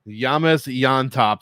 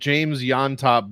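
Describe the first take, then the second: First: The first name begins with a Y sound. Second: The first name begins with a J sound. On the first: The speaker calls it right. "Brady himself was pronouncing it Yames Yontop" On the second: The speaker calls it wrong. "I I said James Yontop"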